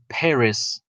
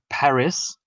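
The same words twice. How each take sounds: First: It is said with an American accent. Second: It is said with a British accent. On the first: "whereas the Americans they would say Paris" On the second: "The British would would say Paris"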